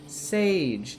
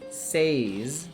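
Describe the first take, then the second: First: The name is said as Sage. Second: The name is said as Says. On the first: The speaker calls it right. "It's Sage" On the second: The speaker calls it wrong. "not Says"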